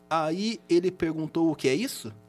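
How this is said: It sounds flat until the last word rises.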